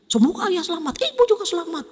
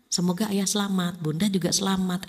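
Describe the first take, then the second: First: It is said in a harsh, high tone. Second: It is said in a pleasant, gentle tone.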